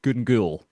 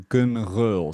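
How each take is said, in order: First: The second part starts with a hard g. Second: The second part starts with a throaty sound. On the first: This is how many locals say it. "that's how a lot of Glaswegians will say it" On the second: This is the authentic Gaelic form. "if you want to get it the the authentic way"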